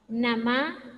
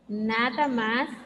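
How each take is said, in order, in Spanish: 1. Se omiten sílabas y queda una forma más corta. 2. Se pronuncia cada sílaba completa.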